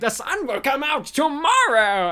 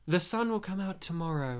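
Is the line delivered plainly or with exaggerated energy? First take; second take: exaggerated energy; plainly. First: It is said with wild, exaggerated energy. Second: It is said in a plain, normal way.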